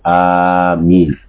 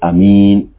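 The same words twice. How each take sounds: First: The first vowel is drawn out long. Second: The first vowel is short and plain. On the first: "It is permissible for you to elongate the Hamza" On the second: "and without the mad"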